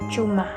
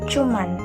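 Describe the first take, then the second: First: The word ends on an open vowel. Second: The word ends with an added 'n' sound. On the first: The speaker calls it right. "yang betulnya itu adalah cuma" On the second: The speaker calls it wrong. "kata tidak bakunya itu cuman"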